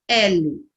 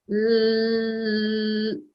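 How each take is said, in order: First: The full spoken letter name is produced. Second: Only the bare consonant sound is produced. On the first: "como que é o nome da letra?" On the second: "Olha o som do fonema"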